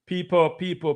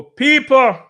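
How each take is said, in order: First: Said in the usual way. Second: Much higher, much louder shout of people. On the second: Real, not acted. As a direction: yell it out to the whole chat. Begging chat for likes.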